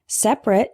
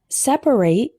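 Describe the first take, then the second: First: The word is said with two syllables. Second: The word is said with three syllables. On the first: It describes things as apart or distinct. "Separate is an adjective" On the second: It names the action of setting things apart. "Separate with three syllables is a verb"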